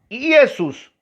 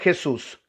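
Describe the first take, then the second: First: The name begins with an ee vowel sound. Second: The name begins with a throaty consonant sound. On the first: This is the older form, before the letter J. "se le decía Jesús, con la I" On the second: This is the later form, after the letter J. "introduce la J y empieza a llamarse Jesús"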